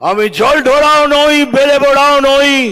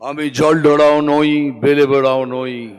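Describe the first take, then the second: First: The line is said loudly and forcefully. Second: The line is said at normal volume.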